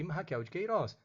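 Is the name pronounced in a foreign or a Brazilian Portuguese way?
Brazilian Portuguese. The name is said with Brazilian Portuguese pronunciation. The speaker calls it right. "Os nomes são ... Raquel de Queiroz"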